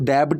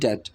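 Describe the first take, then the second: First: The b sound is pronounced before the t. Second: The b sound is silent before the t. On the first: The speaker calls it wrong. "इसको डेब्ट नहीं बोलते हैं" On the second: The speaker calls it right. "बो की आवाज़ नहीं आएगी"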